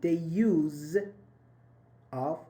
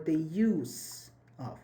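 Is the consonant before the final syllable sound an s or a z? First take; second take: z; s. First: The middle consonant is voiced, a z sound. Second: The middle consonant is voiceless, an s sound.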